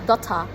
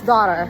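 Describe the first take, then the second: First: It is said in an English accent. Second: It is said in an American accent.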